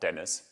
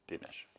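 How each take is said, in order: First: The name is said like English Dennis. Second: The name ends with an sh sound. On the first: The speaker calls it wrong. "Not Dennis" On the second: The speaker calls it right. "this is by authority"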